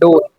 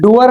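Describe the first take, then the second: First: It is said as one syllable, dor. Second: It is said as two syllables, doo-er. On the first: The speaker calls it right. "डोर होता है" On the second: The speaker calls it wrong. "डूअर नहीं होता"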